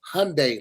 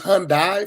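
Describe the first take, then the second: First: The ending rhymes with Sunday. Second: The ending does not rhyme with Sunday. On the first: The speaker calls it right. "it's Hyundai, like Sunday" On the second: The speaker calls it wrong. "I thought it was Hyundai for the longest time"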